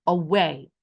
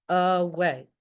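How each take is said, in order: First: Said in the usual way. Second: "Away" parted into two beats, a-way; syllable by syllable. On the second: Shown as a demonstration. Teacher counts syllables with class, "Away" broken into a-way. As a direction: sound out "Away" with each syllable separate. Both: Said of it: "How many syllables?".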